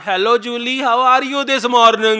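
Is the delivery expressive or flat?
flat. It is spoken with flat, unimitated delivery. The speaker calls it wrong.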